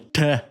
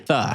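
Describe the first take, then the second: First: It is a plain t sound. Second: It is a soft th sound. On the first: "sair como T" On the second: "ao invés de T"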